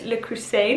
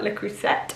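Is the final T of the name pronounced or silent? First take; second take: silent; pronounced. First: The final T sound is left silent. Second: The final T sound is clearly pronounced. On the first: The speaker calls it right. "So I think it's Le Creuset" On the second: The speaker calls it wrong. "not Le Creuset"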